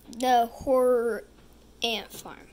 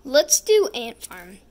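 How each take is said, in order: First: Slow, drawn-out horror title; spooky announcer. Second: Said in the usual way. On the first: Shown as a demonstration. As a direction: announce it like a scary movie. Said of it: "I like the horror Ant Farm".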